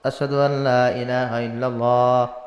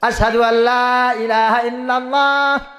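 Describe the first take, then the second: First: The phrase is said shyly and quietly. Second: The phrase is said loudly, almost shouted. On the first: The speaker is embarrassed. "এখন লজ্জায় লজ্জায় বলতেছে" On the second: The speaker has been told to speak boldly. "একটু চিল্লা চিল্লা বল, জোরে জোরে।"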